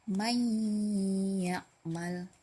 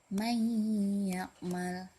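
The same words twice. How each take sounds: No difference in how they are said.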